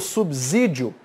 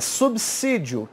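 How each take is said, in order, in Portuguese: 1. A consoante do meio soa como z. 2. A consoante do meio soa como s. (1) "tá errado, porque esse S aqui não tem som de Z" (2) "É subsídio que se fala"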